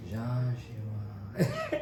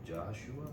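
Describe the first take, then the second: First: Half-laughing, airy realization of the name; stunned recognition. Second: Said in the usual way. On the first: Retold or imitated. Retelling to his friend, laughing at the realization. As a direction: say the name like it all just clicked.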